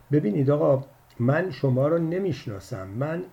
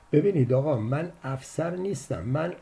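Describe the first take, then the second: First: A touch of flustered haste. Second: Mildly fed-up, impatient; bored, impatient. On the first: Man caught off guard by the caller, mildly flustered. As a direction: hurriedly cut in, a bit rattled. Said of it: "مرد با دستپاچگی گفت". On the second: Man tired of the caller's lecture, mildly impatient. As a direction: sigh it out, out of patience. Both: A narrator's reading.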